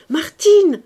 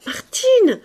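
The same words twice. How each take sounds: First: Martine called louder; louder calling. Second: Martine called very high; high calling. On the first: Young woman calling again, louder. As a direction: call the name louder. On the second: Young woman calling maid, high. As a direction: call the name up high. Calls name twice. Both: A narrator's reading.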